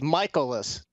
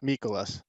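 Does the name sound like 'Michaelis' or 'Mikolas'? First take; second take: Michaelis; Mikolas. First: The name sounds like 'Michaelis'. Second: The name sounds like 'Mikolas'. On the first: The speaker calls it right. "it's Michaelis" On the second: The speaker calls it wrong. "not Mikolas"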